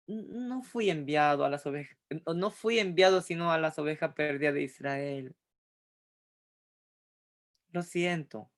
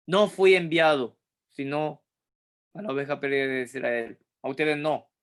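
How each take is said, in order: First: Soft, hesitant, apologetic refusal; Jesus gently declining with regret; gentle apology. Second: Jesus brushing the woman off, unfriendly and cold; cold and curt. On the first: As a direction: let her down softly, sorry to say no. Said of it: "¿Con qué tono de voz ustedes creen que Jesús habría dicho?". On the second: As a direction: snap it off coldly, no warmth at all. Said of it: "Penca, antipático, terrible, frío, cortante". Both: Shown as a demonstration.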